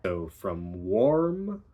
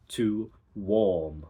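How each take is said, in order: First: Said in the usual way. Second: "warm" said with no R, long open aw; R-less warm. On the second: Shown as a demonstration. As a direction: drop the R in "warm". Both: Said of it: "goes from or to".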